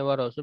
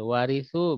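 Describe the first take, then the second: First: The r is doubled and followed by an a. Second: The r is single and followed by an i. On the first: Someone gives the inheritance. "bitasdidir ra'il maftuhati, dengan mentasyikan ra yang berfathah" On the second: Someone receives the inheritance. "bitahfifiha ma'al kasri, ... tidak mentasdinkannya"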